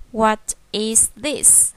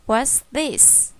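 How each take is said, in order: First: "What is this" slowly, each word separate; full uncontracted form. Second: "What's this" with is shortened to an s; contracted form. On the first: Teacher shows the other way to ask, "What is this" word by word. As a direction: keep "is" whole in "What is this". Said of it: "Hoặc là mình hỏi là". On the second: Teacher models the short question for children, "What's" as one syllable. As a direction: join it up as "What's this". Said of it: "ở đây viết tắt sẽ là what's". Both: Shown as a demonstration.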